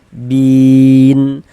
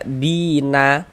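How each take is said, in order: First: The word ends on a silent, stopped n. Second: The word ends with an added vowel a. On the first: The speaker calls it right. "kita baca muqarrabin, bin" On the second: The speaker calls it wrong. "Jangan dibaca bina baru berhenti"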